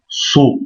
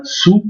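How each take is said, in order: First: "so" with a thickened, emphatic s and a dark vowel. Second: Said in the usual way. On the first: Shown as a demonstration. Teacher showing the emphatic letter: heavy "so". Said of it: "on grossit la lettre". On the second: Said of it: "On dit pas sou".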